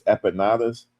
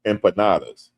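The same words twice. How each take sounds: First: "Empanadas" fumbled, first m nearly dropped; mispronounced empanadas. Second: "Empanadas" with the m clearly sounded; corrected empanadas. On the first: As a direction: say "Empanadas" unsurely, like "eh-pa-NAH-das". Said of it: "I can't pronounce this". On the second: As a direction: say "Empanadas" carefully, as "em-pa-NAH-das". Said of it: "Thank you". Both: Real, not acted.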